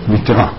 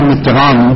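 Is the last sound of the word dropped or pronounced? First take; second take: dropped; pronounced. First: The final sound of the word is dropped. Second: The final sound of the word is pronounced. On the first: The speaker calls it right. "הספרדים לא מבטאים את האות האחרונה" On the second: The speaker calls it wrong. "לא אומר מיטרה"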